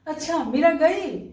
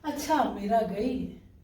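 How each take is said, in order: First: It is said as a question. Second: It is said as a plain statement.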